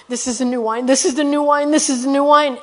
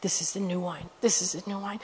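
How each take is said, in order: First: Building from near normal to raised, higher voice; insistent, swelling chant; getting louder and louder. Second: Very soft, hushed repetition; low murmured chant; imitated whispering. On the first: Retold or imitated. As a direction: imitate a man repeating it with growing volume. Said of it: "he's getting louder and louder". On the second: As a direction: whisper it under your breath, as if to yourself. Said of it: "he's whispering".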